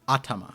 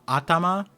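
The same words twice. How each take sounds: First: The stress is on the first syllable. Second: The stress is not on the first syllable. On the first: The speaker calls it right. "I think the the emphasis at the beginning" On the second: The speaker calls it wrong. "I pronounced that wrong"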